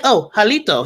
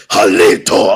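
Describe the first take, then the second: First: Said in the usual way. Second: "Jalito" much lower and louder, from the chest; hint of fierce uncle. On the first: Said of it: "he said, like". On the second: Imitating uncle teaching Choctaw, "Jalito" lower and forceful. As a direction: growl "Jalito" like a stern teacher. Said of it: "He's like".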